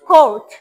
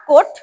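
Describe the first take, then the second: First: "court" said as "khort", puffed k; correct pronunciation. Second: "court" said with a plain unaspirated k; wrong pronunciation. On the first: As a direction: model "court" louder with an aspirated k. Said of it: "it's court". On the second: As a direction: demonstrate the mistaken flat-k "court". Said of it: "it's not court". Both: Shown as a demonstration.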